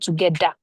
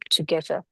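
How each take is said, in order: First: The middle consonant is a hard 'd' sound. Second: The middle consonant is a soft 'th' sound. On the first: The speaker calls it wrong. "not together" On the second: The speaker calls it right. "So together"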